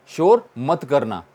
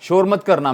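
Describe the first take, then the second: First: Slow, deliberate teacher repeat of शोर मत करना. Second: Said in the usual way. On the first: Shown as a demonstration. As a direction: spell out शोर मत करना slowly for the class.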